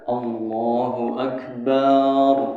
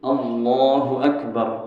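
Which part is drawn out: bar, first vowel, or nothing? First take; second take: bar; nothing. First: The final syllable bar is drawn out. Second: All vowels are kept short. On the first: The speaker calls it wrong. "barnya panjang, ... nggak sah juga" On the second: The speaker calls it right. "Hanya pendek"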